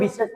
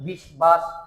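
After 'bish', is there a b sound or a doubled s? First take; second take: doubled s; b sound. First: The s sound is doubled with no b. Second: A clear b sound follows the s. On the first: The speaker calls it right. "আমরা কি বলি বিশ্বাস" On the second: The speaker calls it wrong. "আমরা কি তাই করি বিশবাস করি না"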